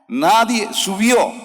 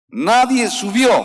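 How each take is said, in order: No difference in how they are said.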